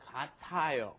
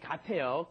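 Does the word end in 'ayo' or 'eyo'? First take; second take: ayo; eyo. First: The ending is said fully as 'a-yo'. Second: The ending is said with an 'e' vowel. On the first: The speaker calls it right. "so you should say katayo" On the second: The speaker calls it wrong. "sometimes Seoul pronunciation comes out kate. But don't do that. Don't say kateo"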